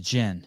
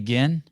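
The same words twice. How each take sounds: First: It is said exactly like the drink gin. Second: It is not said like the drink gin. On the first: The speaker calls it right. "but it's gin, like the drink" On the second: The speaker calls it wrong. "everyone wants to say gin"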